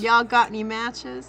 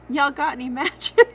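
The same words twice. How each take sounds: First: It is said with a heavier rural Southern accent. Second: It is said with a milder, less rural accent.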